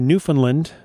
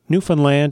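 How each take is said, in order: First: It is said the American way. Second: It is said the Canadian way.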